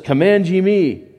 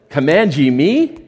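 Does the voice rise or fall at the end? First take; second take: fall; rise. First: It is said as a flat statement. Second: It is said as a rising question.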